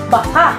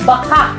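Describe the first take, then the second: First: Said quickly, ending in a sharp glottal catch. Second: The same.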